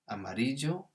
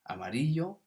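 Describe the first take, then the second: First: The double L is said as a j sound. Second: The double L is said as a y sound. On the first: "a J sound" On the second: "the double L can be a Y sound"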